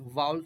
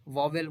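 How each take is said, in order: First: वाउल as one gliding 'vowl'; corrected vowel pronunciation. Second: वावेल said 'vaa-vel', second v sounded; mispronounced vowel. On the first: Teacher gives the correct sound, वाउल as 'vowl'. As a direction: say वाउल without a middle v. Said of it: "वाउल sound होता है". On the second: Teacher quotes what some people say, वावेल as 'vaa-vel'. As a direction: put a v in the middle of वावेल. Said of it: "वावेल बोलते नहीं". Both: Shown as a demonstration.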